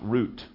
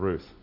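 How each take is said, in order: First: The name ends with a 't' sound. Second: The name ends with a 'th' sound.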